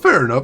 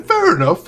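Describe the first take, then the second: First: Said in the usual way. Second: Fair enough squeaked very high. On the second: Real, not acted. Reacting to chat, squeaky first take.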